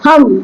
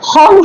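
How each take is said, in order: First: The word ends with an m sound. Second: The word ends with an ng sound. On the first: The speaker calls it right. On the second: The speaker calls it wrong.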